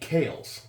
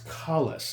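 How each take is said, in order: First: The first vowel sounds like in cake. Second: The first vowel sounds like in call. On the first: The speaker calls it wrong. "I was calling it Kales, like Zales" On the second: The speaker calls it right. "I saw it was Collis, like Khaleesi"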